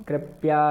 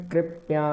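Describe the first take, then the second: No difference in how they are said.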